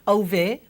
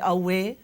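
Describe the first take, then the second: First: The middle consonant is a v sound. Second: The middle consonant is a w glide. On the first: The speaker calls it wrong. "we don't say um, auve" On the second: The speaker calls it right. "we say awe"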